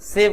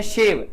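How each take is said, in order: First: सेव begun with a plain s; s sound. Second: शेव begun with a hushing sh; sh sound. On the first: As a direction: say सेव as "save", not "shave". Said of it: "सेव बोल रहा हूँ". (सेव को 'स' से बोलें) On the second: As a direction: say शेव as "shave", not "save". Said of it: "दाढ़ी वाला शेव". (शेव को 'श' से बोलें) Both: Shown as a demonstration.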